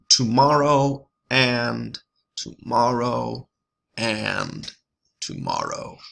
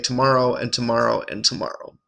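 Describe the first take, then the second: First: The stress falls on each and. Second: The stress falls on each tomorrow. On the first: "Shakespeare highlights these ands" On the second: "the stresses naturally fall on the tomorrow"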